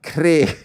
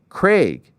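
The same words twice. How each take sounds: First: The vowel does not sound like vague. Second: The vowel sounds like the one in vague. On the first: The speaker calls it wrong. "not Craig" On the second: The speaker calls it right. "It's Craig, like the word vague, but with a C R"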